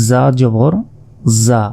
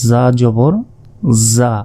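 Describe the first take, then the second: The two takes are said the same way.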